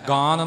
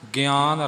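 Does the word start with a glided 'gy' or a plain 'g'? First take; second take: plain; glided. First: It starts with a plain g, no glide. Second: It starts with g gliding through an i sound. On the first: The speaker calls it wrong. "ਗਾਨ ਨਹੀਂ ਬੋਲਣਾ" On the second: The speaker calls it right. "ਗਿਆਨ ਰਤਨ ਹੈ"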